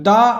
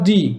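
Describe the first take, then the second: First: The word ends in a short 'uh' vowel. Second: The word ends in a long 'ee' vowel. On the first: The next word begins with a consonant sound. "দায়ের দুটো উচ্চারণ হয়, দা আর দি" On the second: The next word begins with a vowel sound. "দায়ের দুটো উচ্চারণ হয়, দা আর দি"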